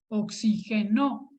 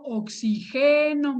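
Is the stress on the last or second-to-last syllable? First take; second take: last; second-to-last. First: The stress is on the last syllable. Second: The stress is on the second-to-last syllable. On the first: Someone supplied oxygen, in the past. "es una palabra aguda que termina en vocal" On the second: I supply oxygen, in the present. "es una palabra grave"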